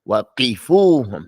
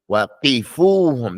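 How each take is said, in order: The two takes are said the same way.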